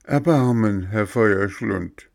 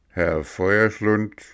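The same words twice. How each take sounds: First: High, tearful begging; begging plea, a touch of tears; pleading. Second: Slow, curt reply; gruff director snapping back; gruff retort. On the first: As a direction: plead for mercy, voice lifted. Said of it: "weinte und flehte". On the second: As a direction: correct him gruffly. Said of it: "gab dieser barsch zurück". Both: A narrator's reading.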